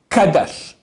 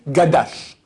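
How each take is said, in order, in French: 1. Le mot commence par un son K. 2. Le mot commence par un son G. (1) "yit, kadash" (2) "les gens font le contraire"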